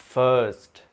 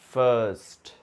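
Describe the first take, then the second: The two takes are said the same way.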